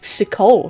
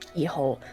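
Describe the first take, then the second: First: The name begins with an S sound. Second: The name begins with a hard K sound. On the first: "Sikol sounds way cooler" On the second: "was pronounced keyhole"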